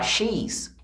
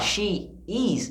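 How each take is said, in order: First: The two words merge into one contracted syllable. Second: Two separate words are said in full. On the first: "eu posso falar she's" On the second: "em vez de falar she is"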